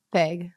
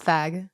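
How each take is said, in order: First: Vague said as "vayg", long a; long-a pronunciation. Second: Vague said as "vag", rhyming with bag; short-a pronunciation. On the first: Co-host answering how it's pronounced, vague as "vayg". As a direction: say vague to rhyme with plague. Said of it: "How do you pronounce the word". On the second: Co-host answering how it's pronounced, vague as "vag". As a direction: give vague a short a, tentatively rising. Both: Shown as a demonstration.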